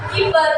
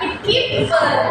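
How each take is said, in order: First: The p sound is short and light. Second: The p sound is held long and heavy. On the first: "Kalau P-nya cuma satu itu cuma keeper gitu aja" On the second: "agak sedikit tebel ya"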